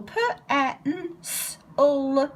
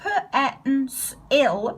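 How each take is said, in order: First: The last syllable has a weak schwa vowel. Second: The last syllable has a full 'i' vowel. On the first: The speaker calls it right. "there's a little schwa just there" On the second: The speaker calls it wrong. "it's not p-e-n-s-il"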